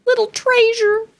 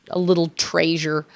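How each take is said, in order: First: Very high-pitched, doting coo; tiny high cutesy voice; cutesy endearment. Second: Said in the usual way. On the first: Real, not acted. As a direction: coo it high, as if to someone adorable.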